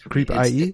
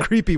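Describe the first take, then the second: First: The ending is spoken as the letters I and E. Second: The ending is a plain 'ee' sound, like creepy. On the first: The speaker calls it right. "You're supposed to pronounce it Creep IE" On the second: The speaker calls it wrong. "If you pronounce it Creepy, we'll revoke your pass"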